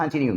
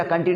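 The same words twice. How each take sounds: First: "कंटिन्यू" as "khaan-tin-yu", puffed k; correct continue. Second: "कंटिन्यू" with a plain k and short 'uh'; wrong continue. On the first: Teacher giving the correct form, "कंटिन्यू" with aspirated k. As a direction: breathe out on the k of "कंटिन्यू". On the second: Teacher rejecting the habit, "कंटिन्यू" with unaspirated k. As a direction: say "कंटिन्यू" without any puff on k. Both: Shown as a demonstration. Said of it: "कंटिन्यू नहीं बोलेंगे".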